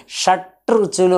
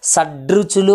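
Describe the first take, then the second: First: "షట్రుచులు" with a hard, held t before r; unvoiced T pronunciation. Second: "షడ్రుచులు" with d gliding into r; voiced D pronunciation. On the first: Teacher showing the difficult form, "షట్రుచులు" with hard t. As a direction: say "షట్రుచులు" stopping on the t of shat. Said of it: "అనడం కష్టంగా ఉంది". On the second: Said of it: "అనడం ఈజీగా ఉంది". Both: Shown as a demonstration.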